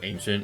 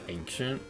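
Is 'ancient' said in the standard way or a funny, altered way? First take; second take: standard; funny. First: The word is said with its usual pronunciation. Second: The word is said with a funny, altered pronunciation. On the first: "the word ancient" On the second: "she would always pronounce the word ancient like ancient"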